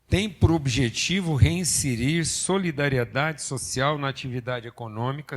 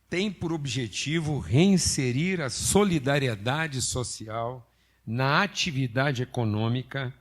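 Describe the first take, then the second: First: It is read at a normal pace. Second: It is read very slowly.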